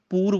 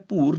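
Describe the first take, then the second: First: "ਪੂਰ" with a clean P; plain P. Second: "ਭੂਰ" with Punjabi bh at the start. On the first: Teacher gives the right sound, "ਪੂਰ" with P. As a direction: start "ਪੂਰ" on P, as poor. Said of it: "ਪੂਰ ਬੋਲਣਾ ਹੈ". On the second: Teacher shows the mistake, "ਭੂਰ" with bh. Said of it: "ਭੂਰ ਨਹੀਂ ਬੋਲਣਾ". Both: Shown as a demonstration.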